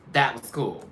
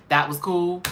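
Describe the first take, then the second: First: Said in the usual way. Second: Pitched up, rising in disbelief; incredulous question. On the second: Real, not acted. Host doubting the judges' verdict, incredulous rising question. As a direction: ask it like you can't believe it.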